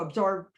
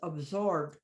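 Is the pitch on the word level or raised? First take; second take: raised; level. First: The pitch jumps up on the word. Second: The pitch stays low on the word. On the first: The speaker calls it wrong. "I don't go absorbed" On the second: The speaker calls it right. "I still keep the way the word is, but I don't raise the pitch"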